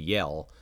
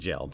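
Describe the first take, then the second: First: The name begins with a Y sound. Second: The name begins with a J sound. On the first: This is the name's original Dutch pronunciation. "It's actually a Dutch name, and I'm pretty sure it's going to be Yell" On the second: This reads the name the way it is spelled. "but I'm pronouncing it Jell"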